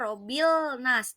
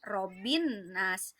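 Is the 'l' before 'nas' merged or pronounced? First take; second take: pronounced; merged. First: The l sound is clearly pronounced before n. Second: The l sound merges into a doubled n. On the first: The speaker calls it wrong. "tidak boleh dibaca robil nas" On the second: The speaker calls it right. "tapi robin nas"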